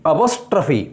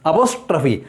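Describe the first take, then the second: The two takes are said the same way.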